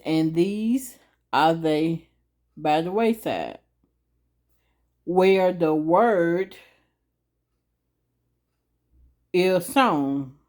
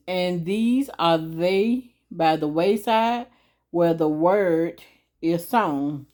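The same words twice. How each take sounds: First: Drawn-out, word-by-word scripture read; very slow reading. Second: Steady slow recital of the verse; slow reading. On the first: Reading the verse slowly again for different learners. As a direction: stretch every word of the verse. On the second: Explaining the verse slowly to the audience. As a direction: read it slowly, a little quicker than before. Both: Shown as a demonstration. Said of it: "I'm gonna read it a little slow".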